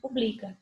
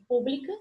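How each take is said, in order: First: The stress falls on the second syllable. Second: The stress falls on the first syllable. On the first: It is the verb meaning publishes. "depois eu tenho publica, que é o verbo ... a segunda não é" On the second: It is the adjective meaning public. "no primeiro eu tenho pública ... é acentuada"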